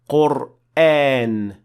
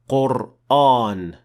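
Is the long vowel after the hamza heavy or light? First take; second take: light; heavy. First: The long vowel is light, with an empty mouth. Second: The long vowel is heavy, with a full mouth. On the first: The speaker calls it right. "should also be pronounced as an empty mouth letter" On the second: The speaker calls it wrong.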